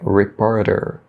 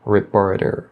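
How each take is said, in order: First: The middle T sounds like a quick tapped R. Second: The middle T sounds like a quick tapped R.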